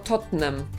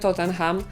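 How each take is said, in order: First: The ending is said without an h. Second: The ending is said with an audible h. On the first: This is how the English say it. The speaker calls it right. "tylko Tottenham" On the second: This is the Polish way of saying it. The speaker calls it wrong. "to nie Tottenham"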